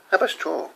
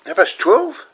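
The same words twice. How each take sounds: First: "Half past twelve." softer, falling at the end; settled echo. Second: "Half past twelve?" pitched high, rising at the end; questioning echo. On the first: Man taking in the time his mate gave, "Half past twelve." softly falling. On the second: Man checking the time with a mate, "Half past twelve?" as a rising question. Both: Acted.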